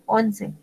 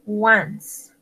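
First: Once read the Spanish way as "ON-se". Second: Once said the English way as "wans"; English pronunciation. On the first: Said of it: "se escribe como se escribe el once en español". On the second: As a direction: pronounce Once like "wuns", one syllable. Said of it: "Se pronuncia once". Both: Shown as a demonstration.

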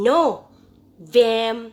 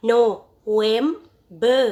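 First: "November" in separate syllables with teeth-on-lip V; "November" with a clear buzzed V in VEM; correct V pronunciation. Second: "November" in separate syllables with W for the V; "November" said slowly as no-wem-ber; wrong W pronunciation. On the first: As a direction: model "November" as no-VEM-ber, slowly, syllable by syllable. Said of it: "ให้นักเรียนออกว่า". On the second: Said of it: "นักเรียนไม่ออกว่า". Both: Shown as a demonstration.

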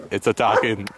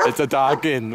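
First: Said in the usual way. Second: Higher, urgent repeat of attacking; alarmed narrator. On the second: Acted. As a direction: let the narrator's calm crack into alarm.

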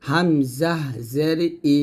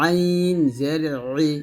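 First: "হামজা জের ই" said lightly from the start of the throat; throat-start hamza. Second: "আইন জের ই" pressed from mid-throat; pressed ayn. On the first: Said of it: "গলার শুরু থেকে বলবো". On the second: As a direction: squeeze "আইন" from the middle of the throat. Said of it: "আইনের চাপ দিয়ে". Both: Shown as a demonstration.

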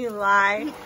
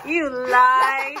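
First: Said in the usual way. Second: You lie, louder and laughing. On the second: Real, not acted. Mom repeats laughing.

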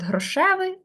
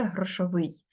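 First: ГрошЕвий, stressed on ШЕ; stem stress. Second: ГрошовИЙ, stressed on the last syllable; stress on ending. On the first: Teacher contrasting two meanings, грошевий stressed on ШЕ. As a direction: say грошевий with the weight on the middle syllable. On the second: Teacher contrasting two meanings, грошовий stressed on its ending. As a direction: say грошовий landing on -ВИЙ. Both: Shown as a demonstration. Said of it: "різні наголоси".

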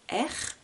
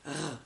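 First: R dit comme son nom de lettre, « R » prononcé « èr ». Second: « R » dit comme le seul son r grasseyé, sans voyelle; son de la lettre R. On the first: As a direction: dites « R » comme l'alphabet, « èr ». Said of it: "je nomme la lettre". (la lettre « R » nommée « èr ») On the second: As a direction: faites juste le bruit de « R », un r de gorge. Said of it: "le bruit que la lettre fait". (« R » comme son, pas comme nom de lettre) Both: Shown as a demonstration.

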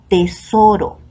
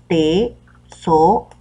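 First: Said in the usual way. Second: "tesoro" said slowly as te-so-ro, each syllable split apart; "tesoro" spelled out slowly by syllable for a class. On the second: Shown as a demonstration. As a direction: drag "tesoro" out to count its three syllables. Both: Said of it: "Tesoro está formado por tres sílabas".

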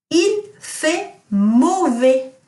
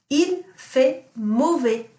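First: Il fait mauvais very slow, higher and louder; teacher quizzing class with Il fait mauvais; slow model sentence. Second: Il fait mauvais repeated slowly; teacher repeating Il fait mauvais for pupils; slow model sentence. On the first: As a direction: stretch Il fait mauvais out word by word. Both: Shown as a demonstration. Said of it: "what does it mean if I say".

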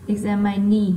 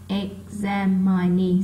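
First: Said in the usual way. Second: EXAMINE slowed and split into separate syllables. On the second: Shown as a demonstration. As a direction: draw out "examine" so each syllable can be counted. Tách âm để đếm trọng âm. (đọc chậm, tách từng âm tiết "examine")

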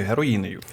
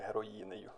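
First: Said in the usual way. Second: «Героїнею» repeated quietly through a laugh, slow. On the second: Real, not acted. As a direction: chuckle out «Героїнею» softly and slowly. (тихо, зі сміхом, «Героїнею»)

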